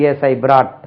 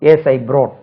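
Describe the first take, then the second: First: BROUGHT with an open 'aa', like 'braat'; common mispronunciation. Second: BROUGHT with a rounded 'o', like 'broat'; corrected vowel. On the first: Retold or imitated. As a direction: mimic learners saying BROUGHT as 'braat'. (BROUGHT-ஐ 'பிராட்' என்று தவறாகச் சொல்) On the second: Shown as a demonstration. (BROUGHT-ஐ 'ப்ரோட்' என்று சொல்) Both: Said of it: "அப்படி சொல்லுவா".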